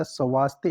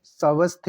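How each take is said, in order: First: स्वास्थ्य with long aa; correct pronunciation. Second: स्वस्थ with short a after v; wrong pronunciation. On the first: Teacher correcting the word, स्वास्थ्य with long aa. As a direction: say स्वास्थ्य as "sa-vaas-thye". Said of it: "ये सही है". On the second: Teacher showing the error, स्वस्थ with short a. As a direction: say स्वस्थ as "sa-vas-the". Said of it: "ऐसे नहीं लिखा जाता". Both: Shown as a demonstration.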